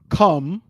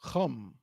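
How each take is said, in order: First: It starts with a plain hard k sound. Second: It starts with a raspy throat sound. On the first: The speaker calls it wrong. "It's not come" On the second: The speaker calls it right. "You hear that pronunciation? ... somewhere between a ha and a ka"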